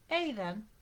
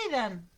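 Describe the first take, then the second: First: Understated alarmed gasp; gasped name. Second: Loud warning call; shouted name. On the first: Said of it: "jadeó". (jadeo de alarma contenido) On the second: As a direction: call out sharply to the child. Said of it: "le gritó Germaine". (grito de advertencia) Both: A narrator's reading.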